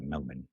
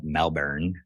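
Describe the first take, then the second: First: "Melbourne" said the Australian way, MEL-bun, with no r sound; "Melbourne" as a local in Melbourne, Australia says it. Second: "Melbourne" said the American way, MEL-burn, with a full r; "Melbourne" in a plain American accent. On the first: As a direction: clip "Melbourne" short to MEL-bun, second syllable a quick unstressed "bun". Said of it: "That's how they say it". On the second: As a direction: give "Melbourne" a clear rolled-in r, MEL-burn, like the Florida city. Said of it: "that is how I say it". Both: Shown as a demonstration.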